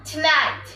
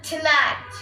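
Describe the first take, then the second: No difference in how they are said.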